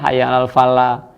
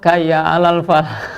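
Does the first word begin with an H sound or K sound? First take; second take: H sound; K sound. First: The first word begins with an H sound. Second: The first word begins with a K sound. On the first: The speaker calls it right. "hurufnya yang jelas" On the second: The speaker calls it wrong. "bukan huruf H tapi huruf K diganti K"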